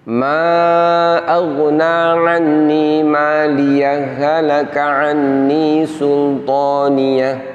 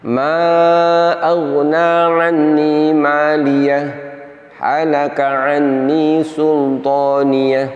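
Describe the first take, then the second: First: Maliyah runs straight on without a pause. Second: There is a brief breathless pause after maliyah.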